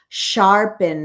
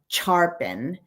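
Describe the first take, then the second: First: The word begins with a soft sh sound. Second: The word begins with a hard ch sound. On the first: The speaker calls it right. "it's sh sharpen" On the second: The speaker calls it wrong. "not sharpen"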